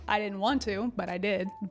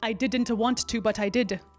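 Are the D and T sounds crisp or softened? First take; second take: softened; crisp. First: The D and T sounds are softened or dropped. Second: Every D and T sound is crisply pronounced. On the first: The speaker calls it right. "perfectly intelligible" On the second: The speaker calls it wrong. "if I were to pronounce every single consonant in that sentence"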